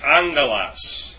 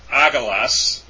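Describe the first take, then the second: First: An n sound comes before the g. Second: There is no n sound before the g. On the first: The speaker calls it right. "it's pronounced as N" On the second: The speaker calls it wrong. "It's not agalos"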